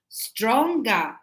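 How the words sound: The ending is an Australian 'ah' sound.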